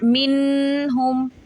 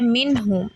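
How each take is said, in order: First: The n is held with a nasal hum. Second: The n is said plainly without nasal holding. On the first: The speaker calls it wrong. "Not मिन हुम, ऐसे नहीं" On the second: The speaker calls it right. "Right way ये है"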